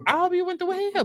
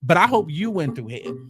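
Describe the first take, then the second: First: Much higher, savage repeat; high biting I hope you went through hell; emphatic spite. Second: Said in the usual way. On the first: Real, not acted. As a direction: throw it up high to drive it home. Repeated with big pitch jump.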